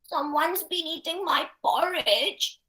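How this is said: The voice is small, high and tiny. A little, young character is speaking. "very small, tiny voice"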